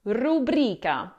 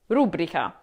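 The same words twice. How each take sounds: First: Rubrica as ru-BRI-ca, slowly; second-syllable stress. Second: Rubrica as RU-bri-ca, dropping lower; first-syllable stress. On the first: Teacher explaining the rule, rubrica slowly with BRI stressed. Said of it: "stress falls on the second syllable". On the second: Teacher repeating the common mistake, rubrica stressed on RU. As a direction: hit RU and let rubrica fall away. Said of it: "No, that's not correct". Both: Shown as a demonstration.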